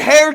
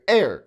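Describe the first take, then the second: First: The word starts with an h sound. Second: The word starts with a vowel sound. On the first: The speaker calls it wrong. "You wouldn't say hair to the throne" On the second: The speaker calls it right. "It's like air that you breathe. That's how you say"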